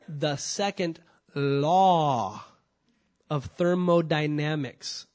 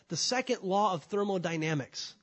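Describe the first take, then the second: First: The phrase is said slowly and deliberately. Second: The phrase is said at a normal pace.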